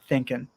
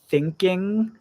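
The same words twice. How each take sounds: First: The word ends with a plain n sound. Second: The word ends with a full ng sound. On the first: "we often change the N G sound at the end of a verb to just be an N sound" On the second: "instead of saying thinking"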